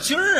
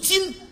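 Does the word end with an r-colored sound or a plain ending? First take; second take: r-colored; plain. First: The word ends with an r-colored sound. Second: The word ends without an r-colored sound. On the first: The speaker calls it wrong. "什么叫今儿啊" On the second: The speaker calls it right. "正字读今"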